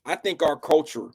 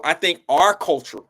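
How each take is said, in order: First: Said in the usual way. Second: Talking around a retainer; words blurred by a retainer; wearing a retainer. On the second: Real, not acted. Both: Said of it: "can't say that with my retainer in".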